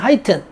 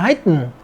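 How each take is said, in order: First: The word is said in a British accent. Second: The word is said in an American accent. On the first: "영국에서" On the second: "미국에서는"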